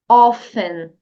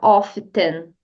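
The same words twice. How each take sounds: First: The T sound is left silent. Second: The T sound is clearly pronounced. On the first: The speaker calls it right. "Diga apenas often" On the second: The speaker calls it wrong. "preste atenção aqui nesse T. Não diga often"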